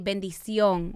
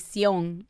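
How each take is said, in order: First: The word is said in full, all syllables. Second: Only the last syllable of the word is said. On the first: This is the usual form of the blessing. "you always say bendición" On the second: This is how Dominicans ask for the blessing. "We just say sion. Like we chop it in half"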